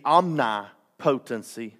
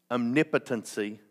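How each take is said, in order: First: Omnipotency stressed on the third syllable, om-ni-PO-ten-cy, slowly; drawn-out omnipotency with the stress on po; wrong stress. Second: Omnipotency stressed on the second syllable, om-NIP-o-ten-cy; corrected stress. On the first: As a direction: say omnipotency with the long stressed "po", like potent. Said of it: "I put the emphasis on the wrong syllable". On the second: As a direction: say omnipotency properly, with the weight on "nip". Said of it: "I like to say omnipotency". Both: Real, not acted.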